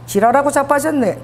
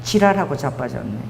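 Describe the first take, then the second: First: "지랄하고 자빠졌네" in Busan dialect with a laugh, stress on 자빠졌네 falling; tossed-off Busan scolding, half laughing; laughing Busan retort. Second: "지랄하고 자빠졌네" dropped low and gruff in Busan dialect, falling flat at the end; deadpan Busan put-down, much lower; blunt Busan retort. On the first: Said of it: "그러니까 이게 부산 말은". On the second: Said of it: "제가 부산 사람이거든. 딱 이렇게 얘기했어요". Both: Pretend.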